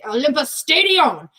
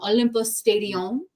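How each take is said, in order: First: It is said in an angry way. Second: It is said in a plain, neutral way.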